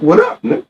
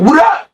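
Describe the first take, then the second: First: Lightly raised, casual retold greeting. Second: Higher, heated challenge, retold; aggressive retort. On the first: Retelling the other man's greeting at the video shoot, casual. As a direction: imitate him asking, not pushing it. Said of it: "So he asking me". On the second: Retelling his own heated answer to the man at the shoot, aggressive. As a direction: throw it back aggressively, pitch jumping up. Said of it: "I'm aggressive at the time. I'm heated".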